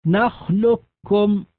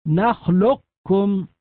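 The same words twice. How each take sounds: First: "نخلقكم" with the qaf fully merged into one doubled kaf, nakhlukkum, slow; full assimilation. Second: "نخلقكم" keeping a trace of the heavy qaf before the kaf, slow; partial assimilation. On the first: Teacher demonstrating full idgham to students, slow doubled kaf. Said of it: "يعني بكاف مشددة". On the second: Teacher demonstrating partial idgham, qaf trace kept. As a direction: recite "نخلقكم" with the qaf's elevation still heard. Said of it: "بإبقاء صفة الاستعلاء في القاف". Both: Shown as a demonstration.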